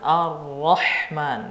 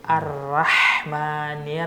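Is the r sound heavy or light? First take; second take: heavy; light. First: The r is pronounced heavy and thick. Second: The r is pronounced light and thin. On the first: The speaker calls it right. "dibaca tebal ra" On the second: The speaker calls it wrong. "dia membacanya tipis"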